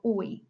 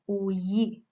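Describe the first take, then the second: First: The two vowels run together without a y. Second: A y sound links the two vowels.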